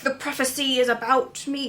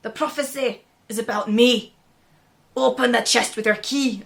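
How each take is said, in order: First: Bad Scottish accent. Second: Put-on a second try at a Scottish accent, slightly louder; a lightly put-on Scottish king's voice. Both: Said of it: "I can't do a Scottish accent".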